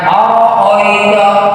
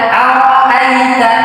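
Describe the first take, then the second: First: The vowels are rounded o sounds. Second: The vowels are open a sounds. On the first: The speaker calls it wrong. "bukan oroito ... Ini oi, bukan ai" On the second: The speaker calls it right.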